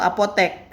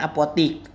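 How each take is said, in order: First: The last syllable has an e vowel. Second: The last syllable has an i vowel. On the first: This is the standard form. The speaker calls it right. "kata yang bakunya itu apotek" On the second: This is the non-standard form. The speaker calls it wrong. "bukan apotik"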